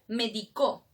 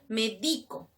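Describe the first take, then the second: First: The stress is on the last syllable. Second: The stress is on the middle syllable. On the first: It means someone prescribed something in the past. "Medicó, ah, es en tiempo pasado" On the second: It means to prescribe something, in the present. "Medico, que te va a recomendar algo, una receta"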